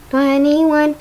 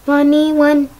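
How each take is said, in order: Both takes have the same delivery.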